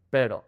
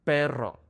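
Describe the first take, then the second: First: Pero with one light r tap; single tap R. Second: Perro with a rolled trill; rolled double R. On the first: Teacher contrasting tap with trill. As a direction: flick the r in pero once. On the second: Teacher contrasting trill with tap. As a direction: roll the rr in perro. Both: Shown as a demonstration.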